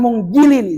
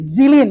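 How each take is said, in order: First: The consonant before -ilin is a hard g. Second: The consonant before -ilin is a z. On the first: The speaker calls it wrong. "Jangan munggilin" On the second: The speaker calls it right. "zilin ya"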